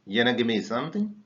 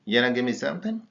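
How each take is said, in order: First: Want to said as yana, quick; contracted. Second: Something said as sumting, rising; contracted. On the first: Teacher modelling the yana contraction. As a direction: rattle off yana give me quickly. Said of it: "contracted as yana". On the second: Teacher repeating the drill with sumting. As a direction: say sumting in yana give me something. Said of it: "We pronounce it as something". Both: Shown as a demonstration.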